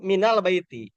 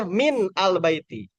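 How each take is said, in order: First: MINAL BAITI linked, min flowing into al as mi-nal; joined wasol reading. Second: Slow MIN, break, AL BAITI; original separated form. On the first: Teacher demonstrating wasol to students, linked reading. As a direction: run "minal baiti" together. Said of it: "kalau di wasol". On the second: Teacher showing students the original words, slowly separated. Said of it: "Ini aslinya". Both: Shown as a demonstration.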